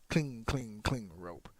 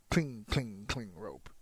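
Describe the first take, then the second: Both takes have the same delivery.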